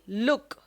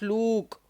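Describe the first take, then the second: First: The vowel is a short oo sound. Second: The vowel is a long oo sound. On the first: The speaker calls it right. "words with a short oo sound" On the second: The speaker calls it wrong. "not look"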